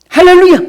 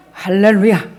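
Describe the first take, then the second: First: Loud, high called-out hallelujah. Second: Said in the usual way. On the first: Real, not acted. Pastor rousing the congregation, loud 할렐루야. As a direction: shout 할렐루야 to lift the room.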